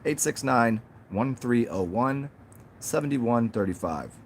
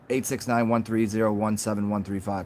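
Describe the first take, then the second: First: It is said in separate grouped chunks. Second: It is said fast as one string.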